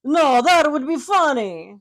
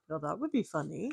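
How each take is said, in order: First: Loud, higher, slow hammed-up Italian accent. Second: Soft, lower mock Italian guy; lightly voiced Italian accent. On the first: Shown as a demonstration. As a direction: belt it in a big Italian accent. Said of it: "So that would be my Italian accent". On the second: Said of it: "Is that your Italian accent".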